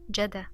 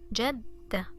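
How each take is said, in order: First: The d sound is short, said once. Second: The d sound is long, doubled and stressed. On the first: "if there was no shadda ... we would pronounce dal one time" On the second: "with shadda, it's jadda"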